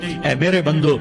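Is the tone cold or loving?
cold. It is said in a cold, flat tone. The speaker calls it wrong.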